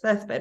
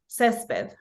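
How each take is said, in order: First: It is said in a Spain Spanish accent. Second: It is said without a Spain Spanish accent.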